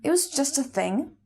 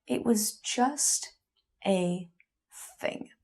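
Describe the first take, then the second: First: Higher, offhand retelling of his excuse; quoting him, as if it were nothing; retold casual dismissal. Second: Word by word with long pauses, fading out; hurt, halting repetition of his phrase; slow, pondering echo. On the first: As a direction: toss it off lightly, lifting at the end. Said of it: "He said he hadn't really thought about it". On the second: Acted. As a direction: turn each word over slowly, trailing to near nothing. Turning his phrase over in thought.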